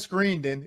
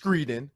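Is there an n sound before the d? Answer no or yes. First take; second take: yes; no. First: An n sound comes before the d. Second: No n sound comes before the d. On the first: This is a personal nickname for her. "I like to call her Screendon" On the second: This is her actual name. "it's Screedon"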